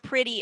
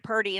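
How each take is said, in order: First: The word is said with a clear t sound. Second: The word is said as 'purdy' with r-coloring. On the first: "you hear pretty and purdy in the same sentence" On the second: "you hear pretty and purdy in the same sentence"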